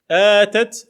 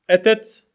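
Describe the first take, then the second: First: The first vowel is long. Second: The first vowel is short. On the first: She gave. "elle a donné" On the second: She came. "elle est venue"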